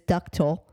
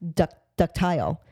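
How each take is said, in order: First: The last syllable is reduced to a weak vowel. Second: The last syllable is full, rhyming with tile. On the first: The speaker calls it right. "But it is ductal" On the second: The speaker calls it wrong. "I was pronouncing it ductile, only because of the way, you know, it's spelled"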